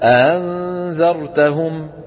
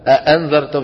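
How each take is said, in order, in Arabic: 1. الهمزة الثانية مسهّلة، مو مقفولة تماما. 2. الهمزة الثانية مقفولة تماما. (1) "ما بيقفلوهم 100%، بيخلوا بينهم شوية فراغ" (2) "بدل ما يقول"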